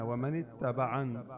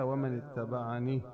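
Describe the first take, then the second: First: The last word ends on a bare consonant. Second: The last word ends with a long 'ee' vowel. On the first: The speaker calls it right. "اذا وقفنا عليها بنسكنها" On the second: The speaker calls it wrong. "انت وقفت عليها ومن اتبعني"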